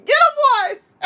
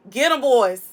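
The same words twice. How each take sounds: First: High call. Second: Said in the usual way. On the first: Pretend. Siccing alligators, second take.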